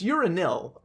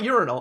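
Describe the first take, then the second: First: The last syllable sounds like 'nil'. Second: The last syllable sounds like 'nal'. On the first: The speaker calls it right. "it's urinil" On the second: The speaker calls it wrong. "So it's not urinal"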